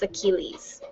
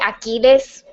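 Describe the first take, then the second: First: The name is pronounced the English way. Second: The name is pronounced the Spanish way. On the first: The speaker calls it right. "but I think it's Achilles" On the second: The speaker calls it wrong. "that's how you say it in Spanish"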